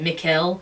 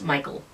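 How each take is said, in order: First: The name sounds like 'Mikkel'. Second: The name sounds like 'Michael'. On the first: The speaker calls it wrong. "I was pronouncing it Mikkel" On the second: The speaker calls it right. "and it's Michael"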